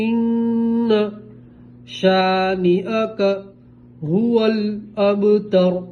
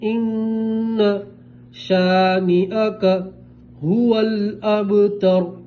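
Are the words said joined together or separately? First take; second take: separately; separately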